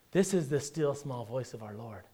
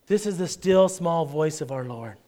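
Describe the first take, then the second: First: Delicate hushed voice. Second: Said in the usual way. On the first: Shown as a demonstration. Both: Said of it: "that real delicate whisper".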